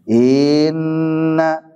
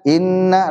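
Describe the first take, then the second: First: The first vowel is drawn out long. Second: The first vowel is kept short. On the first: The speaker calls it wrong. "jadi panjang gitu" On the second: The speaker calls it right. "langsung saja"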